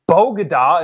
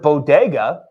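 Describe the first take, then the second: First: The second syllable starts with a g sound. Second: The second syllable starts with a d sound. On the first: The speaker calls it wrong. "Bogada instead of bodega" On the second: The speaker calls it right. "Bogada instead of bodega"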